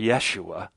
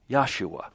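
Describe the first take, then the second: First: The first vowel sounds like 'eh'. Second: The first vowel sounds like 'ah'. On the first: The speaker calls it wrong. "We don't pronounce it as Jeshua or Yeshua" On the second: The speaker calls it right. "or better"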